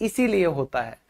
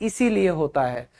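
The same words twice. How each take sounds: The two takes are said the same way.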